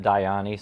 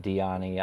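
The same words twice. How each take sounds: First: "Diani" said as die-AH-nee; DIE-ah-nee pronunciation. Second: "Diani" said as dee-AH-nee; DEE-ah-nee pronunciation. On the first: Creator gives his pronunciation, "Diani" with a long I. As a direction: own preferred "Diani", first syllable like "die". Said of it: "I pronounce it". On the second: Creator reports others' version, "Diani" with an ee sound. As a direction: other people's "Diani", first syllable like "dee". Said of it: "Some people said". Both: Shown as a demonstration.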